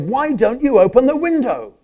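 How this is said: It sounds like an impatient, irritated demand.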